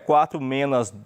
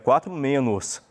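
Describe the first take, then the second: First: The last word ends in -as. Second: The last word ends in -os. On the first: The speaker calls it wrong. "não é quatro menos duas" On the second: The speaker calls it right. "é quatro menos"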